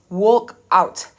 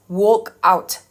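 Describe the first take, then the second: The two takes are said the same way.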